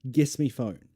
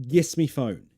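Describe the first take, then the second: Both takes have the same delivery.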